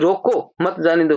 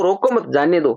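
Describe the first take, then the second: First: The pause comes right after रोको. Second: The pause comes right after मत.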